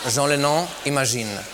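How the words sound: The name is said with a French accent. A French announcer made the foreign name sound French. "der französische Sprecher einen Sänger namens [name] ankündigte"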